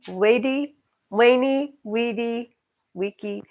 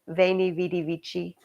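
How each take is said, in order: First: Each word starts with a W sound. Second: Each word starts with a V sound.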